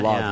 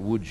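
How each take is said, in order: First: The name is read as the English spelling suggests. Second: The name is said with its Polish pronunciation. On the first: The speaker calls it wrong. "It looks like Lods. You'd say Lods" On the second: The speaker calls it right. "but you pronounce it Łódź"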